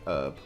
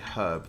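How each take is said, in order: First: The word begins without an h sound. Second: The word begins with an h sound. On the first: "they say herb" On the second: "Americans don't say herb"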